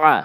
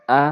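First: "আ" with a tightened throat; throaty ain. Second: "আ" as a clean open vowel; no throat squeeze on "আ"; plain hamza. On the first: Teacher drilling ain against hamza, throaty "আ". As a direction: squeeze "আ" out as an Arabic ain. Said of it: "আইন জবর আ". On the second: Teacher drilling hamza against ain, plain "আ". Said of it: "হামজা জবর আ". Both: Shown as a demonstration.

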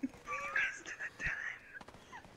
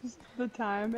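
First: Breathy high whisper. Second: Said in the usual way. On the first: Pretend. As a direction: whisper it secretly. Whispered joke.

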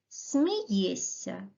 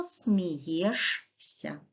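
First: Смієшся said as смієсся, a soft ss with no sh sound; Смієшся spoken the normal way, smiyessya; natural pronunciation. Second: Смієшся read letter by letter, a clear sh before the ся; смієшся slowly, sounding out ш and с separately; spelling pronunciation. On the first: Teacher says the word to pupils as it sounds. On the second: Teacher spells the word aloud for pupils, sounding every letter. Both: Shown as a demonstration. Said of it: "а пишемо".

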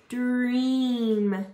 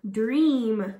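First: "Dream" drawn out, sounds stuck together; slowly blended word. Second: Said in the usual way. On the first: Shown as a demonstration. Teacher blending sounds for kids, "Dream" stretched slowly. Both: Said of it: "you're going to stick it together".

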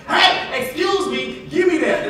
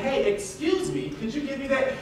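First: Higher and louder, a blunt demand; rude demand. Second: Politely asking, gently; a courteous ask; polite request. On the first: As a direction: snap out a rude order. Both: Shown as a demonstration. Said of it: "That's how they talk".

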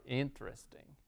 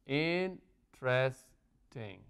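First: Said in the usual way. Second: "interesting" very slowly in three separate beats; syllable by syllable. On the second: Shown as a demonstration. Teacher counting syllables for students, "interesting" split in three. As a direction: break "interesting" into in-tres-ting, pausing between. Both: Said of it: "¿Cuántas sílabas tiene?".

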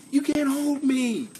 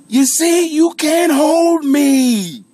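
First: High, slow comic insistence; hammed-up defiance. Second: Very loud, high shout with a long held final word; hammed-up defiant yell. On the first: Streamer telling viewers he won't be boxed in, hammed-up defiance. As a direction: stretch it out in a high put-on voice. Repeats defiant line before big shout. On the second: Streamer bursting out of the box at viewers, hammed-up yell. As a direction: blast it out and hold the last note. Climax of comic rant, bellowed.

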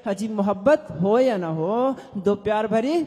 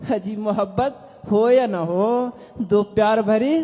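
The two takes are said the same way.

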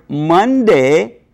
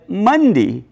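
First: "Monday" with a full "day", MUN-day; full-vowel pronunciation. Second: "Monday" said as MUN-dee; local American pronunciation. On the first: Professor citing the word as spelt, "Monday" with full "day". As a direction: give "Monday" a clear "ay" ending. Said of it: "if you pronounce the word Monday". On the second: Professor showing how locals say it, "Monday" as MUN-dee. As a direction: shorten the end of "Monday" to "dee". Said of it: "as Monday here". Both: Shown as a demonstration.

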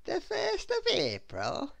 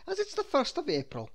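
First: High, slow, drawn-out question; very much surprised. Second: Higher officer's statement; smiling policeman. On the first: Little Miss Scatterbrain learns the date, very much surprised. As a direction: ask it slowly in high-pitched astonishment. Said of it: "very much surprised". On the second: The policeman explains the muddle, smiling. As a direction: state it knowingly, pitched up. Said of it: "he said, smiling". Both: A narrator's reading.

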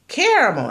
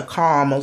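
First: Caramel said with three syllables, KEHR-uh-mel; caramel, full three syllables, first vowel as in care. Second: Caramel squeezed to two syllables, KAR-mel; caramel, two syllables, first vowel as in car. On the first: To her viewers, caramel the three-syllable way. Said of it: "people say caramel". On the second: Quoting a McDonald's customer, caramel as two-syllable car-mel. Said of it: "somebody else at McDonald's say". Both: Retold or imitated.

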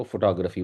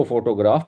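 First: "فوٹوگرافی" as fo-TAA-gruh-fee; English reading pronunciation. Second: "فوٹوگراف" as foto-GRAAF; full o's and long "graaf" in "فوٹوگراف"; reading pronunciation. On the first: Teacher contrasts two readings, "فوٹوگرافی" as fo-TAA-gruh-fee. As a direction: move the weight to "taa" in "فوٹوگرافی". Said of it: "اس کو فوٹوگرافی پڑھتے ہیں". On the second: Teacher contrasts two readings, "فوٹوگراف" as foto-GRAAF. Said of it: "اس کو فوٹوگراف پڑھتے ہیں". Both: Shown as a demonstration.

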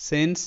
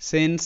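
The two takes are said the same way.

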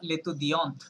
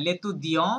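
First: লেতুদিয়ন্ট with an audible closing T; sounded final T. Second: লেতুদিয়ঁ, louder, nasal ending without T; silent final T. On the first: Teacher models feminine student for the learner, T sounded. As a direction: finish লেতুদিয়ন্ট on a clear T. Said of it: "টি পর্যন্ত উচ্চারণ করতে হবে". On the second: Teacher models masculine student for the learner, silent T. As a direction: firmly model লেতুদিয়ঁ with the T left off. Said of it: "এটা টিটা silent থাকছে". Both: Shown as a demonstration.

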